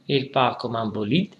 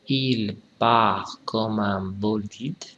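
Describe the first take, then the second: First: The sentence is read fast. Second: The sentence is read slowly. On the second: "trois fois lentement"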